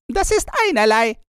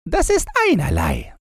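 First: Faster and even higher, brushing it off; quicker, higher dismissal. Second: Higher, shrugging dismissal; offhand robber girl. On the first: Robber girl repeats herself, faster and higher. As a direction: toss it away impatiently. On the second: Robber girl shrugs off the news, higher offhand voice. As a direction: brush it off. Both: A narrator's reading.

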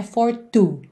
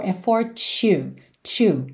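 First: "for two" with a plain hard T, like the number; wrong T sound. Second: "two" softened to "chew", as in fortunate. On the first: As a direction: say "for two" with a clean T-oo. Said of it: "Que não é for two". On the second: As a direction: say "two" with a ch sound before the oo. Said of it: "É quase que o número dois". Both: Shown as a demonstration.

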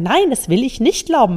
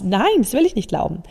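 First: Mean every word of the refusal; sincere and honest. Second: Said in the usual way. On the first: Shown as a demonstration. Coach to her listeners, saying the refusal with sincere conviction. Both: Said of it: "ganz echt und ehrlich sagen".

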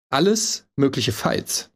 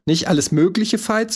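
First: "alles" stressed, slow and clear. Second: "mögliche" as the stressed word, wrong way. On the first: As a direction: lean on "alles", slowly. (Betonung auf „alles“, langsam) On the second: (falsche Betonung auf „mögliche“) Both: Shown as a demonstration. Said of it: "die Betonung ist aber falsch".

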